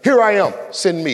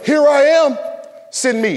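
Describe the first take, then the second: First: It is said plainly, without added expressive inflection. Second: It is said with added expressive, dramatic inflection. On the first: The speaker calls it right. "so I want to make it very clear" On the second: The speaker calls it wrong. "I'm adding inflections that don't exist in the text"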